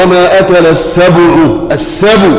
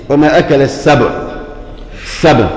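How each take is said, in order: First: "السبع" with a clear rounded damma on the ba. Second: "السبع" with a silent, unvowelled ba; wrong silent ba. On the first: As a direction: lips pushed forward on the ba of "السبع", slow. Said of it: "لازم تقول إيه". (نطق "السبع" بضمة واضحة على الباء) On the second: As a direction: drop the damma, ba of "السبع" cut short with sukun. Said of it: "بقت باء ساكنة". ("السبع" بباء ساكنة خطأ) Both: Shown as a demonstration.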